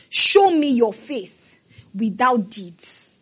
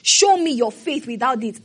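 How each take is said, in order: First: Each word slow and heavy, stress on SHOW; preacher's slow emphasis on Show; slow stressed quote. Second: Said in the usual way. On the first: Acted. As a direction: drag out "Show me your faith" slowly. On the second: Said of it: "repeats the quote".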